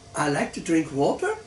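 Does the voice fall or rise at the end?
rise. It is said as a question, rising.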